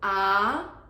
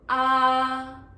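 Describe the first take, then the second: First: The pitch rises from middle to high. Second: The pitch stays high and level. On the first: "second tone ah" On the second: "the first tone ah"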